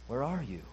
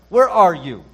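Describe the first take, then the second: First: It is said sorrowfully with a sob. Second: It is said in an angry tone. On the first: The speaker grieves with compassion for the one addressed. "with pathos, with a sob in his throat" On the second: The speaker is angry with the one addressed. "as if God were angry"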